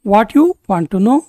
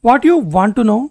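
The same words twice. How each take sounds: First: Slow, careful repeat for learners; a teacher slowing down. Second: Said in the usual way. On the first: Shown as a demonstration. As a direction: spell it out slowly so students can follow. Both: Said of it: "phrase lesson, normal then slow".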